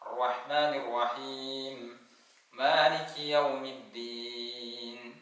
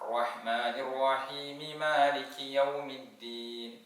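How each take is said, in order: First: There is a stop between the verses. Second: The verses run together without a stop. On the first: "വഖഫ് ചെയ്ത് നിർത്തി ഓതിക്കോളൂ. നിർത്തി ഓതലാണ് സുന്നത്ത്" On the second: "ചേർത്തി ഓതുന്ന ആളുകൾ ശ്രദ്ധിക്കണം, അവിടെ രണ്ട് മീമുകളുണ്ട്"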